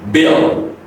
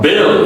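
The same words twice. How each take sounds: First: The final L is dark with a glide. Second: The final L is light and clear. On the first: The speaker calls it right. "it's a dark" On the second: The speaker calls it wrong. "it's not bill"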